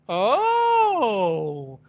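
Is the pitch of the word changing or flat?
changing. The word moves clearly between low and high pitch. The speaker is surprised. The speaker calls it right. "to show the surprise, naturally, emotionally, I have, oh"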